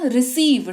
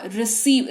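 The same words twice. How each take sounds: First: "रिसीव" with the ई held long; correct long "receive". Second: "रिसीव" said clipped, with no hold on the ई; mock the wrong "रिसीव", vowel cut short; wrong short "receive". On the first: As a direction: hold the ई in "रिसीव". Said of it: "ठहराव है।". (सही "रिसीव", ई पर ठहराव) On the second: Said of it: "ऐसे बोलते हो क्या?". (गलत उच्चारण "रिसीव", छोटी ई के साथ) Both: Shown as a demonstration.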